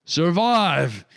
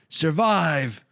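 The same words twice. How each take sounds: First: A loud, much higher yell with a falling end. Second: A loud, higher yell with a falling end; desperate yell. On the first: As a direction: throw the word out like a final order. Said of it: "yelled Reginald". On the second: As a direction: yell the word out as a farewell. Reginald's last plea. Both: A narrator's reading.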